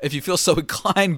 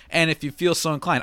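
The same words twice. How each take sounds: First: Plain line broken by a laugh. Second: Lightly voiced old-time radio host; a touch of vintage announcer; 1930s radio announcer. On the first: Real, not acted. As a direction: drop the announcer voice and chuckle. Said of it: "but whatever". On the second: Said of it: "old-timey nineteen thirties radio announcer voice".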